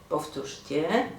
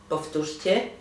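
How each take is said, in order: No difference in how they are said.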